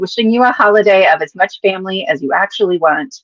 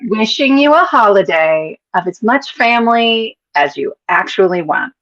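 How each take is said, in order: First: It is read at normal speed. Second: It is read slowly.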